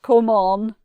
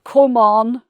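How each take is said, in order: First: The vowel in 'come' is dark and deep. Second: The vowel in 'come' is dark and deep.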